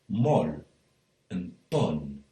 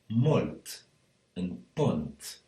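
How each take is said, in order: First: The final t sounds are dropped, northern Valencian. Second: The final t sounds are pronounced, other Valencian.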